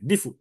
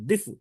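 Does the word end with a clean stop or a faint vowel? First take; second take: faint vowel; faint vowel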